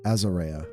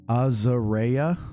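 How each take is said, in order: First: The first vowel matches the vowel in 'as'. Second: The first vowel differs from the vowel in 'as'. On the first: The speaker calls it right. "Like the word as? Oh, as okay, so Azarea" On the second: The speaker calls it wrong. "Wrong A sound at the start"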